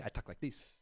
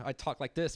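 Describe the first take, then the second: First: LA street voice. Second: Said in the usual way. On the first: Shown as a demonstration. Comic showing how he talks back home in LA. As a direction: lower and much softer, LA way of talking. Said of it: "when I go back to L A, I talk like this". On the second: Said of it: "That's why, like, I talk like this".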